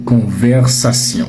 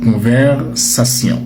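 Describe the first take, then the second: No difference in how they are said.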